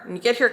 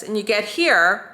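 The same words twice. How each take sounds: First: A bit quicker, as the wrong way; rushed move. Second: Slow, careful demo pace; slow move. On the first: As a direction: hurry it slightly as the mistake. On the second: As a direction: ease through it slowly. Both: Shown as a demonstration. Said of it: "kind of fast".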